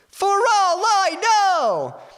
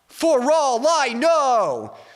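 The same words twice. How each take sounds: First: It is shouted in a high register. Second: It is shouted in a low register. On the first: "I'll shout it out kind of high first" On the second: "And then a lower one"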